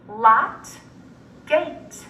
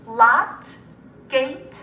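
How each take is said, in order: Both takes have the same delivery.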